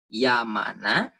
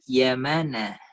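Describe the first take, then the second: First: The a vowels sound like plain Indonesian a. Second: The a vowels take the native Arabic fathah quality. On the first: "Ini dibaca Yamana" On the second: "ini dibaca Yamana"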